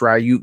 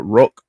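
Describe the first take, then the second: First: The surname sounds like 'Ryuk', with a 'y' glide. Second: The surname sounds like 'Rook', with a short vowel. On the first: This is the speaker's habitual, not proper, way. "I always say Curtis Ryuk" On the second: This may be the proper way. "or uh, Rook or something"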